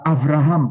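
The name is pronounced with A vowels. This is another Hebrew reading tradition. "Ada juga bisa dibaca Abraham pakai A"

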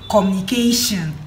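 The word ends with a 'shin' sound. "I'll say communication"

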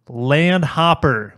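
It is said in a general American accent.

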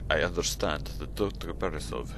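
It is read in a put-on Russian accent. The speaker calls it right.

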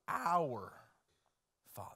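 The stress falls on the word our. He is the Father of all of us together. "but that He is our Father"

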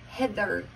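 It is said in an American accent, hard R. "It's very hard in America, the R, it's a hard R"

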